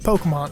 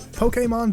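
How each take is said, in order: First: The word is pronounced in a relaxed, casual way. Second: The word is pronounced in a stiff, over-careful way. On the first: The speaker calls it right. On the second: The speaker calls it wrong.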